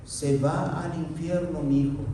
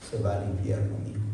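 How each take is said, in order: First: Said in the usual way. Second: Much lower and softer, grave; David realizing his son is lost, low; low dread. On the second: Acted. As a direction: drop the voice to a dark murmur. Voicing David's inner thought.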